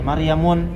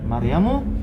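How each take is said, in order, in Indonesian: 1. Nama itu berakhiran bunyi -un. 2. Nama itu berakhiran bunyi -u saja. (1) "tidak boleh baca Maryamun" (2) "harus dibaca Z- Maryamu"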